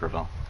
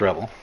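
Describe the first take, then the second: First: The middle consonant is a v sound. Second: The middle consonant is a b sound. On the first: The speaker calls it wrong. "I thought it was like Revel. So I was completely wrong" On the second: The speaker calls it right. "it is Rebel"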